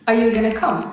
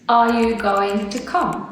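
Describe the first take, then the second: First: The words are squeezed together and said quickly. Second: Every word is said clearly and separately. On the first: "I barely said the are and the you and the going to. I kind of got them together" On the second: "instead of saying"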